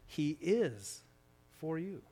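The stress is on the word 'is'.

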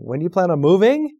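The voice rises at the end.

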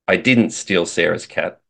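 The stress is on the word 'didn't'.

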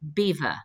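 The name is pronounced like the English word beaver. "the English have never been able to pronounce the French"

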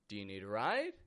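The voice rises at the end. The offer sounds friendly. The speaker calls it right. "instead of"

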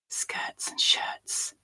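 It is spoken in a whisper. "we'll whisper it"

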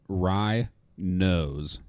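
The two syllables are clearly separated. It refers to the smell of rye. The speaker calls it right. "let's enunciate that"

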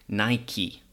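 The brand name is said the American way. "In America, sometimes they say Nike"

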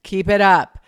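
It is said flatly, like a robot.

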